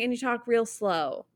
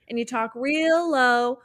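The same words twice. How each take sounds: First: "slow" with a clear s sound, said slowly; drawn-out "real slow". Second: Slow lyric with "low" clear at the end; real low. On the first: Host contrasting the lyric with "slow" instead. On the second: Host testing whether the lyric says "low". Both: Shown as a demonstration. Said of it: "but it feels like she's saying".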